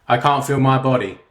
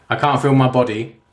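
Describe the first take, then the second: Both takes have the same delivery.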